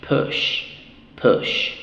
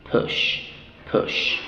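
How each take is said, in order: Both takes have the same delivery.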